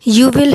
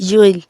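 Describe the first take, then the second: First: Will is said as a separate full word. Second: Will is reduced to an l sound.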